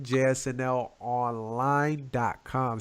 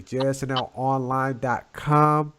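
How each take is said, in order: First: Slowed down, every letter spelled out; slow and clear. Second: Said in the usual way. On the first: Shown as a demonstration. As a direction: read the address slowly. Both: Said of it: "I say it again".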